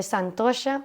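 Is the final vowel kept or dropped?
kept. The word ends with a final vowel sound.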